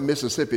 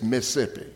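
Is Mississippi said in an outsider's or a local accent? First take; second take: outsider; local. First: The name is said in an outsider's pronunciation. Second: The name is said in a local Mississippi pronunciation. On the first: This is how people from elsewhere say it. The speaker calls it wrong. "It's not Mississippi" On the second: This is how the locals say it. The speaker calls it right. "it's Mississippi"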